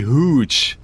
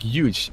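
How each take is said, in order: First: The word begins with an H sound. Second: The word begins with a Y sound. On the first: "if it was with an H" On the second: "with a Y"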